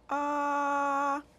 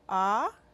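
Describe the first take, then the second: First: The pitch stays level throughout. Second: The pitch rises throughout. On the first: "Simply straight, no change of the tone" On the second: "Go up"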